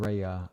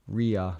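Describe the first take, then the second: First: The first vowel sounds like 'eye'. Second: The first vowel sounds like 'ee'. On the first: The speaker calls it wrong. "more of Ria than Raya" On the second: The speaker calls it right. "It's more of Ria"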